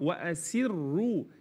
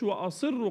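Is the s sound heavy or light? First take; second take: light; heavy. First: The s sound is thin and light. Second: The s sound is thick and heavy. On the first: The speaker calls it right. "السين مرققه" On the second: The speaker calls it wrong. "ما اقولش"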